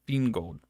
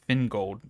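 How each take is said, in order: First: The first syllable sounds like 'fin'. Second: The same.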